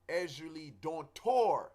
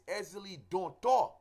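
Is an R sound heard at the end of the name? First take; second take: yes; no. First: The name is said with an R sound. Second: The name is said without an R sound. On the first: The speaker calls it wrong. "a lot of people say Ezuli Dontor with an R" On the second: The speaker calls it right. "There is no R"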